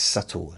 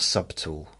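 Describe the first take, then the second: First: The b is silent in the word. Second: The b is sounded in the word. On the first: The speaker calls it right. "It's subtle" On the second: The speaker calls it wrong. "not subtle"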